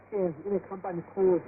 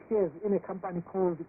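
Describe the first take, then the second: No difference in how they are said.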